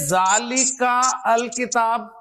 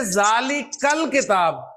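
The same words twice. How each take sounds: First: "जालिका अल किताब" धीरे, दोनों शब्द अलग-अलग, बीच में अल पूरा बोलते हुए; जालिका और अल किताब को जोड़े बिना पढ़ो; गलत अलग उच्चारण. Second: "जालिकल किताब" धीरे, जालिका और अल मिलाकर एक साथ; हमज़ा छोड़कर जालिकल जोड़कर बोलो; सही जोड़कर उच्चारण. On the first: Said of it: "नहीं ना?". (छात्रों को गलत पढ़ाई दिखाते हुए, धीमा अलग-अलग उच्चारण) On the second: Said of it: "आप क्या पढ़ेंगे?". (छात्रों को सही तरीका दिखाते हुए, धीमा मिला हुआ उच्चारण) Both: Shown as a demonstration.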